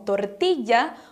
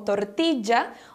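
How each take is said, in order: First: The double L sounds like a y. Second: The double L sounds like a j. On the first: "com sons de I" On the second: "ou de J"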